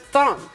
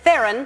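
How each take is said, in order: First: The name is said the South African way. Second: The name is said the common American way. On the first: The speaker calls it right. "But it's Theron" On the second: The speaker calls it wrong. "because that's how people say it here"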